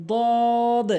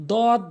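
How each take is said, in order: First: "দদ" long, tongue edge on upper gum; correct pronunciation. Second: "দদ" short, with a plain d; wrong pronunciation. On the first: Teacher models the Arabic letter, correct long "দদ". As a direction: draw out "দদ" with a heavy first d. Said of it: "সঠিক উচ্চারণ". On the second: Teacher shows learners the mistake, wrong short "দদ". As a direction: say "দদ" quickly, cut short. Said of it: "ভুল উচ্চারণ". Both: Shown as a demonstration.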